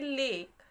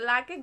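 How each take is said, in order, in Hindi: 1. यह एक अक्षर है, स्वर 'ay' के साथ। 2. यह दो अक्षर हैं, स्वर 'aa' के साथ। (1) "एल ए के ई को हम पढ़ेंगे लेक" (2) "लाके गलत है"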